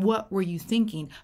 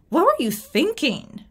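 First: It sounds curious and open. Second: It sounds accusatory and critical. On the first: The question seeks to understand. The speaker calls it right. "But my tone is different. My intent is different" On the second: The question is a criticism. The speaker calls it wrong. "That is not a clarifying question"

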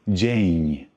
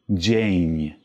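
The two takes are said the same way.

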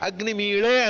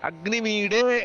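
First: A retroflex l sound comes before the final vowel. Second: A retroflex d sound comes before the final vowel. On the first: This is the Rigveda reading. "ಅಗ್ನಿಮೀಳೆ ಅನ್ನೋದು ಋಗ್ವೇದ ಪಾಠ" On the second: This is the Yajurveda reading. "ಅಗ್ನಿಮೀಡೆ ಅನ್ನೋದು ಯಜುರ್ವೇದದ ಪಾಠ"

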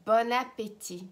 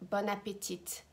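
First: The final T is silent. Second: The final T is pronounced. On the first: The speaker calls it right. "No. Bon appétit. Do not pronounce the T" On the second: The speaker calls it wrong. "do not pronounce the T at the end. It's not bon appétit"

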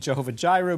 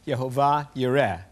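First: Both words begin with a J sound. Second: Both words begin with a Y sound. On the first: The speaker calls it wrong. "would not be Jehovah Jireh" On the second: The speaker calls it right. "but would be Yehovah Yireh"

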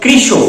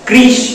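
First: The word ends with an added 'o' vowel. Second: The word ends in a bare consonant. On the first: The speaker calls it right. "এটা অকারান্ত উচ্চারণ হবে... শেষে ও এর মতো হয়" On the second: The speaker calls it wrong. "বাচ্চারা যেন ভুল করে এটাকে না বলে"

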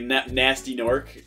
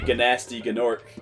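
First: The first word starts with a plain N sound. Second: The first word starts with a hard G sound. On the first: The speaker calls it right. "is like how you're supposed to say it" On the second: The speaker calls it wrong. "I remember always saying it Ganasty Gnork"

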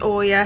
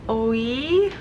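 First: The name is said like 'Oya'. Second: The name is said like 'Oi'. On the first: The speaker calls it wrong. "It's not pronounced Oya" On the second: The speaker calls it right. "it's pronounced like Oi, something like that"

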